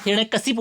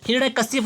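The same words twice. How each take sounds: First: हिरण्यकशिप ending in a clear "kasip(u)"; correct form shown. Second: हिरण्यकशिप with a "kasyap" style ending; wrong form shown. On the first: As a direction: say हिरण्यकशिप with "si" before the p. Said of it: "हिरण्यकशिप होता है". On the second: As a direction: give हिरण्यकशिप the faulty ending. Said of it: "हिरण्यकशिप नहीं होता". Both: Shown as a demonstration.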